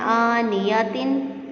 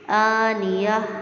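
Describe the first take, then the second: First: The word ends with a -tin syllable. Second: The word ends with a silent h sound. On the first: The reader continues without stopping. "वैसे तो इसको पढ़ेंगे ना आनियातिन" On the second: The reader stops on this word. "जब इस पे हम वक़्फ़ करेंगे तो आनियाह"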